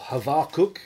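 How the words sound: The name is said in a Jewish-style pronunciation.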